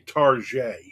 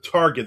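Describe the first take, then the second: First: It is said with a French-style ending. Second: It is said the plain English way. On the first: The speaker calls it wrong. "they say Target" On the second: The speaker calls it right. "instead of Target"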